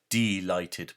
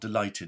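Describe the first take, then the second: First: The first syllable is a full, distinct 'dee'. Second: The first syllable is a reduced, everyday 'dih'. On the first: Deprived of light. "I pronounce it like that because that's what it means" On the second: Very pleased. "not delighted as in chocolate delight"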